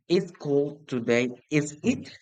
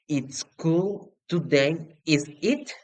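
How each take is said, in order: First: "is it?" falling down, sure and seeking agreement; falling tag. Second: "is it?" rising clearly upward, genuinely unsure; rising tag. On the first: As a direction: let "is it?" drop, confident, inviting agreement. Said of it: "If your voice goes, goes down". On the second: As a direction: lift "is it?" up high like a real question. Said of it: "If your voice goes up". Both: Shown as a demonstration.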